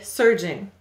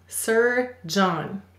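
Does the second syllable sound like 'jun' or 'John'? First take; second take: jun; john. First: The second syllable sounds like 'jun'. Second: The second syllable sounds like 'John'. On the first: This is how the word is normally spoken. "Go ahead and say surgeon" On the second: This is a pronunciation used to help with spelling. "We will say to spell Sir John"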